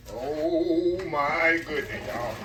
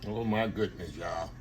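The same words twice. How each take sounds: First: Slow, stretched-out oh my goodness; long wondering exclamation; drawn-out awe. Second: Said in the usual way. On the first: Real, not acted. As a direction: savor every word in amazement. Admiring the dish.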